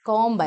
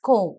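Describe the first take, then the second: First: A b sound is heard at the end. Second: The word ends in m with no b. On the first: The speaker calls it wrong. "കോംബ് അല്ല" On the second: The speaker calls it right. "കോം എന്ന് മതി"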